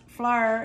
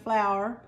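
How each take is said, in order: First: Flour is said with a Kentucky pronunciation. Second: Flour is said with a standard pronunciation. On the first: "In Kentucky, it's often pronounced flour" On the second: "instead of flour"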